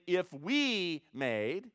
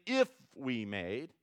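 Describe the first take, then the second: First: "we" stretched very slowly with a rise; stress on we. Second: "if" lifted and drawn out, slowly; stress on if. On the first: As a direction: drag out "we" to show it is not personal. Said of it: "It isn't personal saying". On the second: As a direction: lean on "if" with a rising tune. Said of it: "it isn't convicted if saying". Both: Shown as a demonstration.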